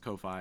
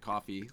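First: The word is said as ko-fye. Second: The word is said like coffee. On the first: The speaker calls it right. "It clearly says Ko-Fi" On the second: The speaker calls it wrong. "Some people would pronounce it coffee"

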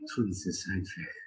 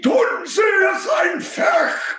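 First: It is said in a camp voice. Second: It is screamed forcefully.

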